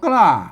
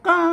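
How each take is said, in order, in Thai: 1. มีเสียงควบกล้ำ kl และเสียงเอกปกติ 2. มีเสียง k ธรรมดา และเสียงวรรณยุกต์พิเศษ (1) "ไทยบนอ่านว่ากล้าเสียงโทปกติ" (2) "ภาษาละนาเปิ้นคำนี้เปิ้นอ่านว่าก้าเสียงโทพิเศษ"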